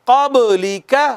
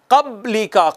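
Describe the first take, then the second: First: क़ब्ली का with the ब bounced as an echo, slower; correct reading. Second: क़ब्ली का with the ब flat, no echo bounce; wrong reading. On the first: Teacher showing the right way with qalqala echo. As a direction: let the ब in क़ब्ली rebound. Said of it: "सही क्या है". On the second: Teacher showing students the wrong way, no echo. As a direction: say क़ब्ली का plainly without qalqala. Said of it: "अगर मैं यूं पढ़ूं तो गलत होगा". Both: Shown as a demonstration.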